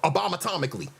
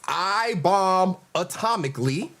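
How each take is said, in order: First: It is run together as one word. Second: It is said as separate words.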